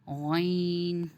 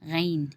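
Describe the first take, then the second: First: The letter is said with a thick, heavy sound. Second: The letter is said with a thin, light sound. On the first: The speaker calls it right. "मोटी आवाज़ निकलेगी" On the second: The speaker calls it wrong. "इसको हमें ऐसे नहीं पढ़ना गैन गैन नहीं"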